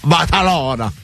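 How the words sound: It is said with a heavy Spanish accent. The speaker sounds like a local in Spain. The speaker calls it right. "that's the Spanish pronunciation, is they go very heavy on the Barcelona, like that"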